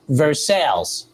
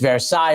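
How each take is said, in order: First: It is pronounced the Kentucky American way. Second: It is pronounced the French way. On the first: "in Kentucky, the street that Keeneland's on is, they pronounce it" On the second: "obviously it's Versailles over there"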